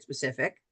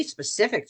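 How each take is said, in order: First: "specific" repeated lower and much softer, trailing off; soft low echo. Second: Said in the usual way. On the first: Shown as a demonstration. Coach to agents, repeating "specific" as a soft low aside. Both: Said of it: "It doesn't have to be specific".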